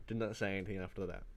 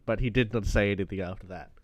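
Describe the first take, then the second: First: Much softer repeat; soft repeat that drives the point home; quiet echo. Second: Said in the usual way. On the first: Real, not acted. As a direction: let the echo drop to a near murmur. Emphatic echo.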